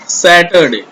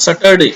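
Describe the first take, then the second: First: Saturday slowly, open sa as in sat; correct first vowel. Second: Saturday with uh first, sutt-er-day; wrong pronunciation. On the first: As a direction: stretch the opening of Saturday: saat-er-day. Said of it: "it's Saturday". (Saturday में लंबा, खुला 'सै') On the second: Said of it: "it's not Saturday". (Saturday का गलत उच्चारण, 'सटरडे') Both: Shown as a demonstration.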